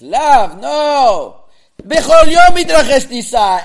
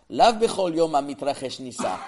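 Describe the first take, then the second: First: There is a break after lav. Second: It runs on with no pause after lav.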